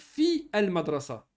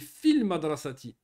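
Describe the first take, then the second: First: The article's vowel is pronounced separately. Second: The article's vowel is dropped and linked. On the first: The speaker calls it wrong. "Est-ce qu'on va dire Fi Al-Madrasa? Non" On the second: The speaker calls it right. "on dit Fil Madrasati"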